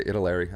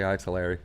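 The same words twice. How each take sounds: First: Italeri with a short i, ih-ta-LEH-ree. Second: Italeri said eye-ta-LEH-ree; eye-taleri. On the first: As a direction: Italeri starting ih. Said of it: "I don't say Italeri". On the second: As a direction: Italeri with a long eye at the start. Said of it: "I say Italeri". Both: Shown as a demonstration.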